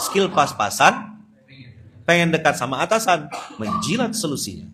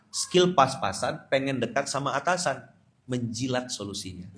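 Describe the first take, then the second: First: Louder mocking retake. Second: Said in the usual way. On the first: Shown as a demonstration.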